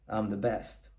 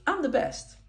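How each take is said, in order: First: Low, much softer, dead-serious boast; serious brag. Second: Upbeat, higher-pitched little boast; positive brag. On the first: Coach demoing a serious brag to students, low and grave. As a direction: drop the voice right down and mean it. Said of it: "Or you can do it in a serious way". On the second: Coach demoing a positive brag to students, upbeat. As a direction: say it brightly, pleased with yourself. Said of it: "You can do this in a positive way". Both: Shown as a demonstration.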